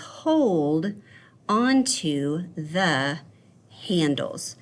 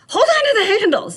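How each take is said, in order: First: It is said calmly, without shouting. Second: It is screamed loudly and forcefully.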